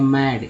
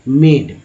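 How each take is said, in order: First: The vowel sounds like the 'a' in cat. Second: The vowel sounds like 'ay'. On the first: The speaker calls it right. "अब देखिए शुद्ध कैसे होगा" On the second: The speaker calls it wrong. "Confusion है"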